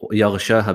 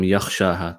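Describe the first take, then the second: First: The middle consonant is a voiced gh sound. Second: The middle consonant is a voiceless kh sound. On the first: The speaker calls it right. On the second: The speaker calls it wrong.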